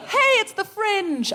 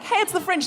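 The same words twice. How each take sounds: First: High, slow, beaming announcement; bursting into song. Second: High, sing-song cheerful greeting; bursting into song. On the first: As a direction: greet everyone like a festival performer. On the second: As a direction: announce it like you're about to sing. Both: Retold or imitated. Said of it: "like I was about to burst into song".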